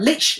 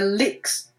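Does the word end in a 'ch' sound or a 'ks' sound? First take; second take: ch sound; ks sound. First: The word ends with a ch sound. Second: The word ends with a ks sound. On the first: The speaker calls it right. "That's the one" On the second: The speaker calls it wrong. "It's not licks"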